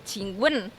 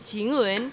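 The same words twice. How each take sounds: First: The syllable wen is said with an abrupt drop. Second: The syllable wen is said without an abrupt drop. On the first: It means asking a question. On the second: It means a kiss.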